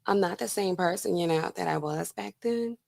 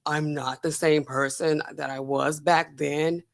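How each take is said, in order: First: Softer, lighter mock meek voice; a hint of a humble, soft-spoken plea; Holmes soft voice now. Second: Low, slow, soft put-on deep voice; Holmes baritone. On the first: Contrasting Holmes then and now, softer meek voice. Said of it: "She's probably now like". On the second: Contrasting Holmes then and now, low slow baritone. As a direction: lightly mimic her old forced baritone. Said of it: "she's not talking like".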